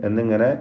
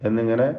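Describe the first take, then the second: No difference in how they are said.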